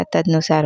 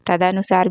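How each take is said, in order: First: तदनुसार said as "tadnusaar"; "tad-nu-saar" for तदनुसार; correct pronunciation. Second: तदनुसार said as "tadanusaar"; "ta-da-nu-saar" for तदनुसार; wrong pronunciation. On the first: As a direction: run d straight into n in तदनुसार. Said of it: "होता है". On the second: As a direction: add a full a after the d in तदनुसार. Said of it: "भी नहीं होता". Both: Shown as a demonstration.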